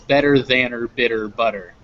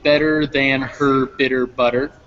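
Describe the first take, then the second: First: Said fast, 'than her' fused without the h. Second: Said slowly, with the h of 'her' pronounced. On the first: "when you start speeding it up" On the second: "when we're speaking slowly"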